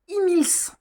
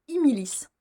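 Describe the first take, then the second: First: "Imils" in two syllables, high and distinct; correct pronunciation. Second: "Imilis" with an extra i, three syllables; misread pronunciation. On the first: Reader back with the book, announcing "Imils" correctly. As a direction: announce "Imils" as i-mils, ending on l-s. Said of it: "Il s'agit de". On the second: Reader confessing how she misread it, "Imilis" with an added i. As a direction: say "Imilis" as i-mi-lis. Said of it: "j'ai lu un I en plus". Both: Shown as a demonstration.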